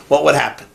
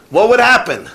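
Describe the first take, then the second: First: Said in the usual way. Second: "What WOULD happen?" said higher and louder, stressing "would"; the rhetorical question pushed harder; emphatic repeat. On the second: Shown as a demonstration. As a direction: press the question home, leaning on "would".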